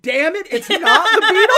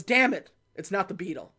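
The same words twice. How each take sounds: First: Mocking his complaint back at him, high, loud and laughing; mocking echo. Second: Said in the usual way. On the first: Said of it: "She goes". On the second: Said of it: "He goes".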